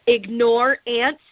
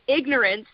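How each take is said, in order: First: It is split into two words, ignore ants. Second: It is said as one ordinary word. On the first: Ignoring something. "is a totally different concept" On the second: Lack of knowledge. "ignorance means one thing"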